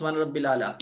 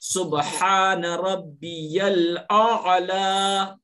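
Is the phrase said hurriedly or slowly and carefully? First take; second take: hurried; slow. First: The phrase is said hurriedly and carelessly. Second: The phrase is said slowly and carefully. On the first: The speaker calls it wrong. "उसमें भी गलती करते हैं लोग, कहते हैं" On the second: The speaker calls it right. "ये बहुत इत्मीनान से कहना है और सही तलफ्फुज़ के साथ"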